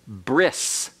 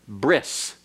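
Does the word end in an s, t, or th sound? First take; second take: s; s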